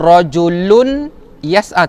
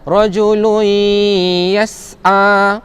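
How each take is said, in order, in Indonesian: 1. Bunyi n diucapkan dengan jelas sebelum y. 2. Bunyi n menyatu menjadi y yang bersengau dan ditahan. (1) "Jangan baca rajulun yas'a" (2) "rajului masuk dalam huruf ya... beserta dengung dua harakat"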